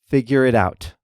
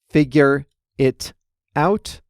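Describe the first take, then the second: First: The words are said fast and run together. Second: The words are said slowly and separately.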